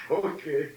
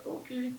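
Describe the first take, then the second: First: Laughing okay. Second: Tiny, much higher, softer okay; "Okay." said high and meek as a scared child; small kid's okay. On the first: Real, not acted. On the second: Retold or imitated. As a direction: squeak "Okay." out like a timid nine-year-old. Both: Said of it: "I didn't sound like I was".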